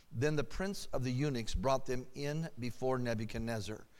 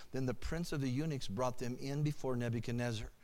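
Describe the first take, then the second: The two takes are said the same way.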